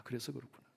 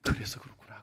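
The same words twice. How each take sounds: First: Barely audible echo of the thought; faint murmur. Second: Hushed, to himself; whispered realization. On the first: Pastor repeating the realization to himself in a faint murmur. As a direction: let it fade almost to nothing. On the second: Pastor realizing why the students pray, whispering. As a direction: whisper it as it dawns on you. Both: Retold or imitated.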